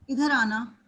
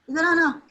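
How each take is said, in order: First: It is said in a soothing, gentle tone. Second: It is said in a louder, harsher tone.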